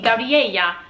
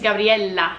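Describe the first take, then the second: First: The double L is said the Spanish way. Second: The double L is said the Italian way. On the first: This is how the name would be read in Spanish. "In Spanish, that would be Gabriella" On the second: This is how her own name is said. "she's Gabriela, not Gabriela. She's got a double L"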